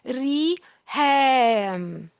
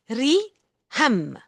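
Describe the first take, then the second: First: The second vowel is held long. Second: The second vowel is cut short. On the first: The speaker calls it right. "It is long" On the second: The speaker calls it wrong. "Otherwise, it would have been re ham"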